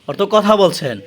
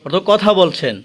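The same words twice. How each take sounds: The two takes are said the same way.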